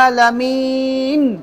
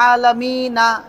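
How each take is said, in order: First: The word ends on a bare final n consonant. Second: The word ends with a short a vowel. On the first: The speaker calls it right. "এক জবর থেমে গেলে জজম হয়ে যাবে" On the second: The speaker calls it wrong. "থেমে গেলে এটা বলবেন না যে আলামিনা, এভাবে না"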